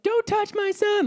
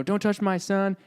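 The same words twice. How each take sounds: First: Very high, drawn-out mock yell; imitated mother's yell. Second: Higher-pitched, lightly voiced mother's warning; mild retold yell. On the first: Mom running in to defend her son, imitated yelling. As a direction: shriek it slowly like a protective mom, without full volume. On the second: Son retelling his mom's warning, mild mock yell. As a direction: quote mom's yell at ordinary volume. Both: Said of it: "and she's yelling".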